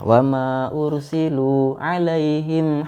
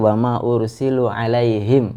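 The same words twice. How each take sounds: First: The long vowel is held long. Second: The long vowel is cut short. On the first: The speaker calls it right. "itu kan panjang, ada mad di sana" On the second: The speaker calls it wrong. "Kamu tadi wa ma ursilu alaihim ya"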